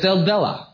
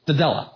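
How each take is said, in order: First: The word is said slowly and fully. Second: The word is said very quickly. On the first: The speaker calls it wrong. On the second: The speaker calls it right.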